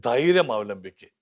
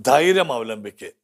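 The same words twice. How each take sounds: First: ധൈര്യം അവലംബിക്ക് said slowly, each word drawn out; slow, deliberate. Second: ധൈര്യം hit firmly, falling at the end; firm repeat. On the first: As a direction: draw out ധൈര്യം അവലംബിക്ക് calmly. (ധൈര്യം അവലംബിക്ക് പതുക്കെ, ഓരോ വാക്കും നീട്ടി) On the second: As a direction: repeat ധൈര്യം അവലംബിക്ക് with conviction. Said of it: "ധൈ-, ധൈര്യം അവലംബിക്ക്". (ധൈര്യം എന്ന വാക്കിന് ഊന്നൽ, അവസാനം താഴ്ന്ന്) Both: Shown as a demonstration.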